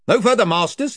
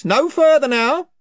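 First: Higher gruff chieftain warning; invisible chief. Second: Invisible chief, louder. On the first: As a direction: stop them from the empty air. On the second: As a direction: repeat the warning with more force. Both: Acted.

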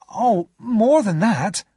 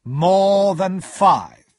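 First: High, louder exclamation; drawn-out, high protest; exclaiming. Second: Higher, louder, heavily drawn-out echo; slow, booming repeat of the amount. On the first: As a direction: exclaim it, pitched well up. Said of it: "I exclaimed". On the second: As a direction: stretch every word out weightily. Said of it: "Mister Jaggers said slowly". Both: A narrator's reading.

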